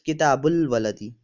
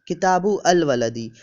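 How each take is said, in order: First: The article is linked into the first word. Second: The article is said as a separate syllable.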